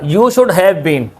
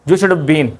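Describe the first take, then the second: First: The word 'have' is clearly pronounced in full. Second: The word 'have' is dropped or heavily reduced. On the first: "मैंने पूरा लिख लिया" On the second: "हैव का contraction कर देते हैं ये, इसने क्या बोला, ऐसे बोला"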